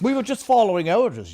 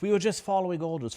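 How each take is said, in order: First: It is said in a put-on German accent. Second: It is said in a British accent. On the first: "we don't say it with a German accent anymore" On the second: "We now say it with a British accent"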